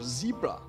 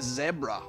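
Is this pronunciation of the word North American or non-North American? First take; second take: North American; non-North American. First: It is said in a North American pronunciation. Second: It is said in a non-North American pronunciation.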